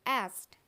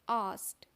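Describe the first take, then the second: First: The vowel is a flatter 'a' sound. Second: The vowel is an open 'ah' sound. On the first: "American में इसको बोला जाता है एस्ट" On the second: "आस्ट British में बोला जाता है"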